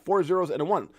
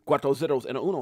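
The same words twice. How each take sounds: First: Said in the usual way. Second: "Cuatro" and "uno" said in Spanish, rest in English; playful Spanish swap. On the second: Shown as a demonstration. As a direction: show off a little Spanish. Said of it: "For those of you guys speak a little Spanish".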